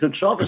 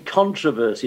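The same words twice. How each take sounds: First: The stress falls in the British place. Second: The stress falls in the American place. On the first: "instead of controversy" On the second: "they say controversy"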